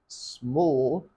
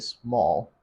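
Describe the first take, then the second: First: It is said with a British accent. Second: It is said with an American accent. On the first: "Britons say small" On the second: "Americans say small"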